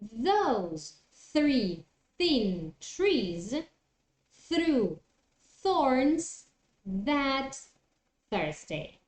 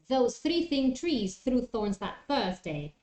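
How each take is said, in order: First: The phrase is said slowly and carefully. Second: The phrase is said quickly. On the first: "do it slowly" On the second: "try to do it a little bit faster"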